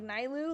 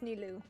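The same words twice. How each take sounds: First: The first syllable sounds like the word Nile. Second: The first syllable does not sound like Nile. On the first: The speaker calls it wrong. "I always thought it was Ni like Nilu, like Nile" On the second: The speaker calls it right. "but it's Nilu"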